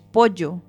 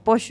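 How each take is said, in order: First: Pollo is pronounced with a Spanish accent. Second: Pollo is pronounced with an Argentine accent. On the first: The speaker calls it right. "es pollo" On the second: The speaker calls it wrong. "no se dice pollo"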